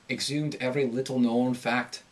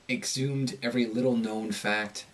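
First: The long O vowel rises slightly in pitch. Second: The long O vowel falls in pitch. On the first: "So with Irish, you're going to have like a slight rise, just slight" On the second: "In the American accent, when you have a long O, it tends to go down in pitch"

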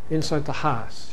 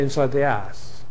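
First: The h in house is pronounced. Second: The h is dropped from house. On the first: "She doesn't drop her H's" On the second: "She doesn't say"

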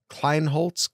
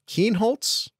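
First: An L sound follows the first K. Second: No L sound follows the first K. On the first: The speaker calls it wrong. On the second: The speaker calls it right.

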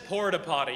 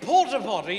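First: It is said in a plain American accent. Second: It is said in a posh British accent. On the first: It sounds crude and unpleasant. "when Matt Falk says porta-potty, you're like, oh my, I can smell it from here" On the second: It sounds delightful and refined. "But when I say porta-potty, you go, oh, that sounds delightful"

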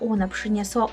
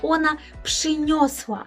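First: The verb is said with an e vowel. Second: The verb is said with an o vowel. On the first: The speaker calls it wrong. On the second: The speaker calls it right.

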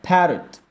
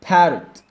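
The two takes are said the same way.

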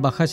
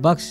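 First: The middle consonant is followed by a vowel. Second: The middle consonant is said with no vowel. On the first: The speaker calls it wrong. "इसको हम बख्श नहीं पढ़ेंगे" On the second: The speaker calls it right. "बीच में वाला का जो हर्फ है वो साकिन पढ़ा जाएगा"

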